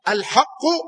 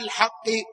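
First: The word ends with a 'u' vowel. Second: The word ends with an 'i' vowel. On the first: The word describes the guardianship. "على قراءة الرفع" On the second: The word describes God. "وعلى قراءة الخفض"

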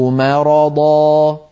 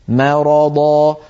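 No difference in how they are said.

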